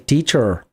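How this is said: The final r sound is clearly pronounced. "they say teacher"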